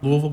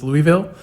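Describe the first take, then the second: First: The name is pronounced the way locals say it. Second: The name is pronounced the way outsiders say it. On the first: The speaker's own hometown pronunciation. "I'm from Louisville" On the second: How people from elsewhere say it. "which other people pronounce as Louisville"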